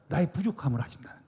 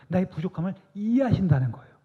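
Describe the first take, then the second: First: 나의 부족함을 아신다는 거예요 whispered, quick and breathy. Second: 나의 부족함을 이해하신다는 거예요 voiced out higher, stress on 이해하신다는; full voice. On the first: Preacher whispering to the congregation that God knows our weakness. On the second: Preacher declaring aloud to the congregation that God understands. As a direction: come back to full voice on 이해하신다는. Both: Real, not acted. Repeated phrase, whisper then full voice.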